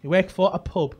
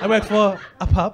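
First: Said in the usual way. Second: Mimicking her southern pronunciation of "pub"; imitated accent. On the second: Comic imitating woman who works for pub, mock southern accent. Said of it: "She went".

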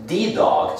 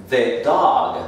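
First: Wrong "the dog" with a long ee in "the"; "the" as "thee". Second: "the dog" with a short vowel in "the", no ee; "the" as "thuh". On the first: Teacher showing what not to say, "the" as "thee". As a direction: say "the" as "thee", pitched up. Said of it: "No es the dog". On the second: Teacher correcting to the right form, "the" as "thuh". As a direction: slowly say "the" like "thuh". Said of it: "sino the dog". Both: Shown as a demonstration.

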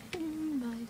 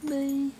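First: Said in the usual way. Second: Loud bye. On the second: Shown as a demonstration. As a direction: shout the bye out cheerfully.

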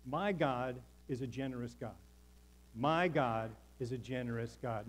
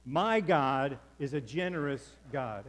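First: Said in the usual way. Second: Louder, slower, full belief; with conviction. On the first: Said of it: "In fact, say that with me". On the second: Shown as a demonstration. Pastor leading the congregation, said with loud conviction. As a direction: proclaim it like you mean every word. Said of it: "Now say it like you believe it".

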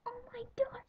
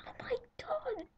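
First: Much higher shrieked oh my god; pretend fangirl shriek. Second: Much higher squealed oh my god; pretend fangirl squeal. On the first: Girl acting out the celebrity call for viewers, high shriek. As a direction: shriek like you just got the call. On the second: Girl acting out getting the celebrity call, high squeal. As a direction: squeal like the call just came. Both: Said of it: "I just did that on camera".

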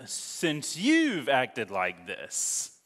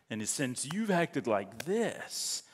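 First: Slow, deliberate quote; Samson's words read slow and heavy. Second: Slow, softer repeat; lingering reread of Samson's words. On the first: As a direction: stretch out since you've acted like this. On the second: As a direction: say since you've acted like this slowly again, quieter. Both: Acted. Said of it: "And Samson said to them".

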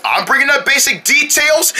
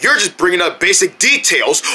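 First: "details" pitched up as an offended question; higher, challenging echo ending on "details"; indignant echo question. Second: Said in the usual way. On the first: Acted. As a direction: throw "details" back higher, in disbelief.

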